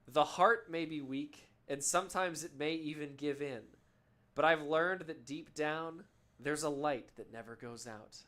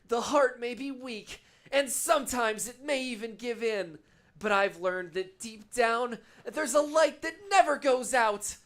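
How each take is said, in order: First: It is read in the speaker's normal voice. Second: It is said as a Kingdom Hearts character impression.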